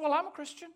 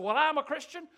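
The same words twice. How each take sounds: First: Imitating a young woman's high, quick answer; typical twenty-something. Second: Imitating a bold older man, high and loud; eager, forthright. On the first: Young woman answering about her spiritual background, typical twenty-something. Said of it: "she gave the typical twenty-something answer". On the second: Old man answering a preacher on a plane, quick and forthright. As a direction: jump right in, proudly declaring it. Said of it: "he was real quick to speak up".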